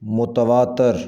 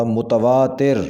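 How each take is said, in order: First: متواتر ending in "tar", "mutavaatar"; mispronounced. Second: متواتر ending in "tir", "mutavaatir"; correct pronunciation. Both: Shown as a demonstration. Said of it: "صحیح تلفظ ہوگا".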